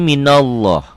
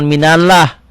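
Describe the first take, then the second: First: The lam of Allah is heavy, like o. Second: The lam of Allah is thin and light. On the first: The speaker calls it right. "Berbunyi o" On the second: The speaker calls it wrong. "jangan minallah"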